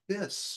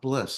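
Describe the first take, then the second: First: The name is said without an L sound. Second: The name is said with an L sound. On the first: The speaker calls it right. "it's this" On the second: The speaker calls it wrong. "not bliss"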